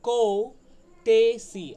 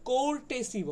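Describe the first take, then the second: First: No r sound is heard in the first syllable. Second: An r sound is pronounced in the first syllable. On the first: The speaker calls it right. "এটা হচ্ছে কৌ টেসি" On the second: The speaker calls it wrong. "এটাকে অনেকে কোর্টেসি বলে"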